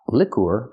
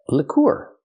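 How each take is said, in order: First: The stress is on the first syllable. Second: The stress is on the second syllable. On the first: The speaker calls it wrong. "Not liqueur" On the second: The speaker calls it right. "Move the stress to the second syllable"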